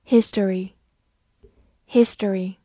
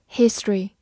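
First: History said in three syllables, HIS-to-ry; careful dictionary history; standard history. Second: History squeezed to two syllables, HIS-try; reduced history; alternative history. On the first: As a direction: read history slowly, his-to-ry. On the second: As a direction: say history as HIS-try, dropping the middle vowel. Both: Shown as a demonstration. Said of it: "或者读作history".

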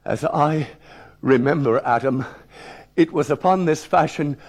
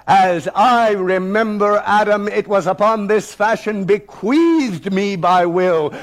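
First: Hesitant reading broken by pauses; reluctant schoolboy reading aloud; halting reading. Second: Slow, defiant declamation, pitched up; bold, ringing schoolboy recitation; thundering, commanding. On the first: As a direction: read cautiously, stalling as the dreaded word nears. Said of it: "I paused before the deadly word". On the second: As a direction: read it out with total assurance and challenge. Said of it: "I read with thunder and assurance and command". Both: Acted.

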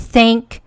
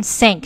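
First: "thank" with a true th, tongue out; 标准th音. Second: "thank" said as "sank"; th读成s. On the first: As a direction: begin "thank" with the tongue between the teeth. ("thank" 咬舌发th) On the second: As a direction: replace th in "thank" with s. ("thank" 错读成 sank) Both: Shown as a demonstration. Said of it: "他肯定觉得thank跟thank是一样的".

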